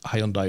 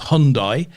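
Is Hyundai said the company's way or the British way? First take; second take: British way; company's way. First: The name is pronounced the usual British way. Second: The name is pronounced the way the company says it. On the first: "we call it Hyundai over here" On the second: "they do pronounce uh, Hyundai as Hyundai"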